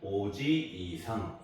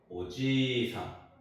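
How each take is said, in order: First: The extra vowel is said as a separate syllable. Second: The ji syllable is smoothly lengthened. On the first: The speaker calls it wrong. "오지이상 이렇게 하는 게 아니고" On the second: The speaker calls it right. "지를 한 번 더 발음하는 거예요"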